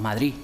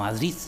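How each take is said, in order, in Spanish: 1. La d final se omite. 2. La d final se pronuncia. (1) "Eliminación de algunas consonantes finales" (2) "nosotros no pronunciamos"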